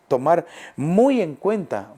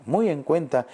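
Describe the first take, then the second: First: Muy slow and weighted, stretched out; stress on muy. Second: Said in the usual way. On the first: Shown as a demonstration. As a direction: lean on muy, slowly. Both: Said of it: "tenemos que te".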